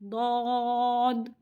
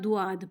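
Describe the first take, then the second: First: The vowel after d is an aw sound. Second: The vowel after d glides from u to aa. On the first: The speaker calls it right. "इसे पढ़ना है दौद" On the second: The speaker calls it wrong. "ना दुआद पढ़ना है, ये दोनों तरीके गलत हैं"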